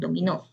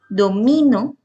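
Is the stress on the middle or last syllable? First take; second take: last; middle. First: The stress is on the last syllable. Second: The stress is on the middle syllable. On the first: "tiene el acento en dominó" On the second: "tiene el acento en mi"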